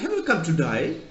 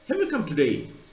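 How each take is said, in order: First: Today sounds like to die, Australian style. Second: Today is said with a plain standard vowel.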